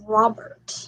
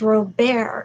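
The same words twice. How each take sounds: First: The name is pronounced the English way. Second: The name is pronounced the French way. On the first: The speaker calls it wrong. "not Robert" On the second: The speaker calls it right. "it's the French pronunciation"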